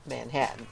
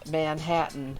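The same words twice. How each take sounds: First: The unstressed vowels are reduced and quick. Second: Every vowel is pronounced fully and clearly. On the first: This is the speaker's own way of saying it. "that's how I say Manhattan" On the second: This is how someone from Manhattan says it. "he says Manhattan, Manhattan with ... all vowels"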